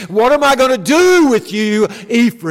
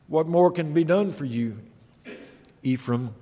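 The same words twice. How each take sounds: First: Higher, louder exasperated cry; God despairing over his people; divine exasperation. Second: Much softer, sinking sorrowful question; sorrowful hush. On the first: Preacher voicing God crying out to Israel in exasperation. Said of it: "in exasperation, looks upon these people and says". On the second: Preacher voicing God's heartbroken final question to Ephraim, quiet. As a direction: let it fall away to a grieving hush. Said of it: "as if God is saying to them". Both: Acted.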